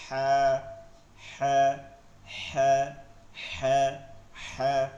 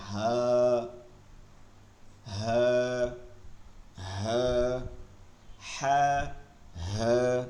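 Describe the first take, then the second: First: "হ্যাঁ" squeezed from mid-throat, light and short; pressed, whispery H. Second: "হ্যাঁ" low and deep, from the bottom of the throat; grave sound. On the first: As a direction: press the breath through "হ্যাঁ". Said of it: "ফিসফিস করে". ("হ্যাঁ" চাপ দিয়ে ফিসফিস করে) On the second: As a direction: hold "হ্যাঁ" on a low, solemn note. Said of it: "গম্ভীর আওয়াজে বলতে হবে". ("হ্যাঁ" গম্ভীর আওয়াজে) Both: Shown as a demonstration.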